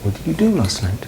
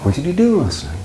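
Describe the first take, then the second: First: "do" stressed, falling end; softer model repeat. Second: Teacher demo of falling intonation; model question. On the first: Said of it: "It goes up on do and then down". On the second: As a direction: stress on do, falling end. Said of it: "is it going up or going down". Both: Shown as a demonstration.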